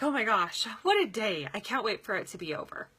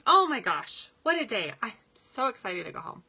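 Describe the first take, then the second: First: Weary sigh. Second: Excited. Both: Shown as a demonstration. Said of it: "So I'm making a statement".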